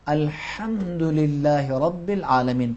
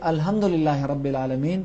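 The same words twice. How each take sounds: First: The h is pushed tightly from the throat. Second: The h is a plain, light breath. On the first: The speaker calls it right. "बल्कि ... पढ़ेंगे" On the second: The speaker calls it wrong. "नहीं पढ़ेंगे"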